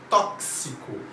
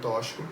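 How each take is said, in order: First: The x is pronounced as a ks sound. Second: The x is pronounced as a sh sound. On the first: The speaker calls it right. "som de X tem som de K S" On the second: The speaker calls it wrong. "pronúncia do X como C H"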